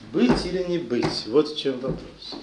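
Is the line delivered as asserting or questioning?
questioning. It is said like a doubtful question to oneself. The speaker is asking himself whether to live. The speaker calls it wrong. "неправильно сказать"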